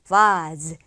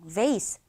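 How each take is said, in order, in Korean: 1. 영국 억양으로 발음합니다. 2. 미국 억양으로 발음합니다. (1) "영국 사람이 발음을 하면 어떻게 소리가 나냐면" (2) "vase라는 발음을 많이 하는데"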